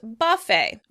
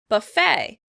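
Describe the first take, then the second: First: The stress is on the first syllable. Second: The stress is on the second syllable. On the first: "British English, the word would be pronounced buffet, buffet, with stress on the first syllable" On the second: "In American English, the word would be pronounced on the second syllable"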